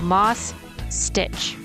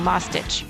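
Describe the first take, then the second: First: It is said slowly, two words kept apart. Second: It is said fast, words blurred together. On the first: It is clearly two words. The speaker calls it right. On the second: It sounds like a single word. The speaker calls it wrong.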